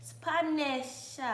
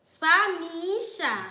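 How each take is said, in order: First: Spanish sounded out as spa-NESH-a; Spanish with an "eh" middle and falling end; sounding out name. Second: Spanisha stretched slowly as spa-NEEE-sha; slow, louder Spanisha with a long "ee"; drawn-out name. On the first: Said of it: "Oh, you pronounce it". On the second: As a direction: draw out the middle of Spanisha, then fall. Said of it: "Girl, your name unique". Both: Shown as a demonstration.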